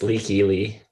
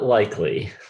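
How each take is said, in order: First: The first syllable sounds like 'lee'. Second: The first syllable sounds like 'lie'. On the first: The speaker calls it right. "It's Leaky Lee" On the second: The speaker calls it wrong. "Not likely"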